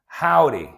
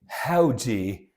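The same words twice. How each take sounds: First: It is said in an American accent. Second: It is said in a British accent. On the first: "now in the American accent" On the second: "I will read it in the British manner"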